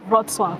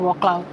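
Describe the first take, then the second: First: The name is said in a Polish way. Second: The name is said in an anglicized way. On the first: The speaker calls it right. "It's Wrocław" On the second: The speaker calls it wrong. "I know it's not Wroclaw"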